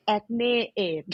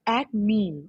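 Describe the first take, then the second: First: "acne" said slowly as "ek-nay"; Thai pronunciation. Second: "acne" with an American "ak-nee"; US pronunciation. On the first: Naming a pharmacy brand in Thai, Thai pronunciation. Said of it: "in Thai, we say". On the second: Asking for the brand at pharmacy, US pronunciation. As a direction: say "Acne" the American way, open first vowel. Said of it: "like, U S accent". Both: Shown as a demonstration.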